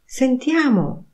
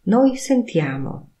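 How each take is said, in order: First: "Sentiamo" higher with a firm fall; invite: "Sentiamo!"; commanding tune. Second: Said in the usual way. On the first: Shown as a demonstration. Teacher models "Sentiamo" as a suggestion to listen. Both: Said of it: "intonacja powodują".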